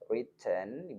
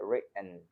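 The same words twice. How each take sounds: First: The t sound is clearly released. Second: The t sound is held in the throat.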